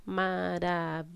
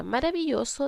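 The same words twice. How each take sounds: First: "maravilloso" in five even beats, ma-ra-vi-llo-so; syllable by syllable. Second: Said in the usual way. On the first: Shown as a demonstration. Teacher shows five syllables to children, syllable by syllable. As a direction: chant out each syllable of "maravilloso", low and level. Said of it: "tiene cinco sílabas". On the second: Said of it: "es separar las palabras en sílabas".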